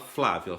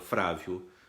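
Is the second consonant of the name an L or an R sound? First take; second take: L; R. First: The second consonant is a clear L sound. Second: The second consonant is an R sound. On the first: The speaker calls it right. "você quer aprender a falar Flávio?" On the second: The speaker calls it wrong. "trocar o L pelo R"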